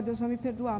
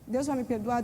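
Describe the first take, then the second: First: "Deus vai me perdoar" stated as a sure answer; settled answer to her own question; confident answer. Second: Posed as a question to the congregation; rhetorical question. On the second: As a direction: ask "Deus vai me perdoar?" as a question. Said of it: "Deus vai me perdoar, mas". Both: Shown as a demonstration.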